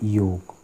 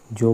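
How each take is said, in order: First: The word begins with a y sound. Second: The word begins with a j sound. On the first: The speaker calls it right. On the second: The speaker calls it wrong. "जोग नहीं"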